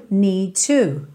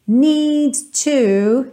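First: "need to" said smoothly, no double stop; linked "need to" again. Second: "Need to" with the D and T joined into one; linked "need to". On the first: Teacher repeating linked "need to" at normal pace. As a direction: run "need to" together quickly. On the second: Teacher modelling linked consonants, slow and careful. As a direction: merge the D into the T in "Need to". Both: Shown as a demonstration. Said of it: "essa junção de T T".

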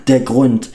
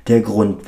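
First: Furious yell. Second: Firm louder accusation; angry accusation. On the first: Father blaming Penelope, climactic furious yell. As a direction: hurl the blame at her. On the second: Father blaming Penelope, firm louder accusation. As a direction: lay the blame down. Father's rant, repeated phrase. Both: A narrator's reading.

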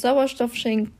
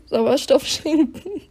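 First: Choking on spit mid-word; swallowed wrong way. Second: Sauerstoff schenken said again slowly, with a laugh; laughing redo. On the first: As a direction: Sauerstoff schenken, choked off. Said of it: "ich hab mich verschluckt". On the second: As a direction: laugh it clean on the second try. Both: Real, not acted.

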